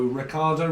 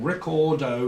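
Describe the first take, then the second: First: "Ricardo" with an open "ah" in the middle; name with "ar". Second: "Ricardo" with an "or" in the middle; name said like "record-o". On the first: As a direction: say "Ricardo" as ri-CAR-do. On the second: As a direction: say "Ricardo" as ri-COR-do. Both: Shown as a demonstration. Tries variants of a heard name.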